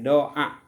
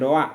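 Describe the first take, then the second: First: A short break separates the two vowels. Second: The two vowels run together smoothly. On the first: The speaker calls it right. "tapi doa" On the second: The speaker calls it wrong. "jangan doa"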